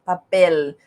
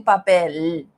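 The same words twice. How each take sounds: First: Papel with the final L sounding like U; vowel-like L. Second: Papel ending in a hard tongue-tip L; wrong L. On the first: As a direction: say papel the way it's normally said. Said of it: "ele tem som de U". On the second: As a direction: say papel with the L fully pronounced, the way it isn't said. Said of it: "Eu não digo papel". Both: Shown as a demonstration.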